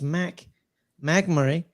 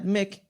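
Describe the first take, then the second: First: The first syllable has the vowel of 'back'. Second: The first syllable has the vowel of 'kick'. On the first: The speaker calls it right. "It's Mac McMurray" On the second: The speaker calls it wrong. "not Mick"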